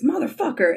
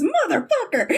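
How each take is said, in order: First: Said in the usual way. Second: "Motherfucker" squeaked much higher, laughing; "Motherfucker" blurted in a high laughing yelp; much higher laughing curse. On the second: Retold or imitated. Kip bumping into Scott again, high laughing curse. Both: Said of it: "the mirrored line of".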